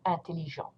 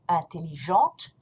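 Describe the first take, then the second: First: Intelligent stopping on the nasal vowel, no T; silent T. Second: Intelligente with the final T sounded; pronounced T. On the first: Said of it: "You do not pronounce the T". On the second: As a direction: end Intelligente on a clear T. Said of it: "You will pronounce a T". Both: Shown as a demonstration.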